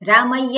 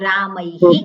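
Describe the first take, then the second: First: The word ends with a 'y' sound. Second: The word ends with a 'hi' echo. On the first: The speaker calls it wrong. "નહીં" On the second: The speaker calls it right. "વિસર્ગનું ઉચ્ચારણ હી કરવાનું"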